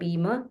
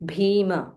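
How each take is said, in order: First: The first consonant is said without a breath. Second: The first consonant is said with a breath. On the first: The speaker calls it wrong. "Don't say Bhima" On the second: The speaker calls it right.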